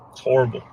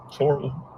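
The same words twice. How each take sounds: First: Said in the usual way. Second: Choked up. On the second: Real, not acted. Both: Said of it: "sorry for being emotional".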